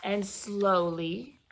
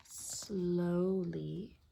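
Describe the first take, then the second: First: Stretched-out storyteller pace; slow narration. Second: Drawn-out whisper, very soft; slow and hushed. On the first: Storyteller describing the peddler's walk back, drawn out slowly. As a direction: draw out the word "slowly". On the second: Storyteller echoing the peddler's slow walk, hushed and slow. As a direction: stretch "slowly" out in a whisper. Slowness acted out, hushed repeat. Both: A narrator's reading.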